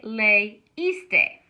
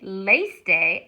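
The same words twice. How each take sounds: First: "leíste" slowly as lay-EES-tay; broken diphthong. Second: "leíste" run together as LAYS-tay; diphthong, two syllables. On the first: Teacher showing the wanted form, "leíste" slow as lay-EES-tay. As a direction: split "leíste" in three, stressing the long EES. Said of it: "I wanna say". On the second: Teacher showing what to avoid, "leíste" as LAYS-tay. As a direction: say "leíste" with the i swallowed into lay. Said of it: "I don't wanna say". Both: Shown as a demonstration.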